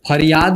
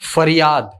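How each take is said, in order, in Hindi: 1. पहली ध्वनि एक महाप्राण p है। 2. पहली ध्वनि f है। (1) "फरियाद नहीं होता" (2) "क्या होता है, फरियाद"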